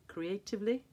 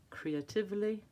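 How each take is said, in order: Both takes have the same delivery.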